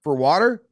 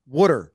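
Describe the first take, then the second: First: Said in the usual way. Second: "Water" as Philly "wooder"; Philly accent. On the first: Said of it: "you took a word". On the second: Shown as a demonstration. Host mocking Philly's ugly water, Philly accent. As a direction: trash the vowel into a Philly "oo". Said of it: "Let's trash this up".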